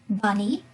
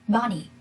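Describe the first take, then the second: First: The stress is on the second syllable. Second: The stress is on the first syllable. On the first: "He said the word bunny stressed on the second syllable" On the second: "the first syllable, bunny, will be stressed"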